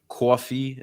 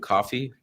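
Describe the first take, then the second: First: It is said in a Brooklyn accent. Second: It is said in a standard accent. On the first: "I have a Brooklyn accent... we say coffee" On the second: "instead of coffee"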